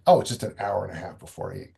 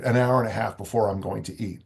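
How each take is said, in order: First: Quick, lower, brushing it off; answering your own worry with a shrug; dismissive self-reassurance. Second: Said in the usual way. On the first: Shown as a demonstration. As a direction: wave it away fast, no big deal. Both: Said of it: "Am I hungry?".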